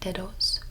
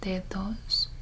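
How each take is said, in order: First: The d sounds are hard and dense. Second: The d sounds are soft, almost like th. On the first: The speaker calls it wrong. "a lot of people would say something like dedos" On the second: The speaker calls it right. "You can almost turn it into the T H sound"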